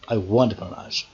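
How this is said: The stress falls on the word want. Wanting them, not hating them. "I don't hate bananas"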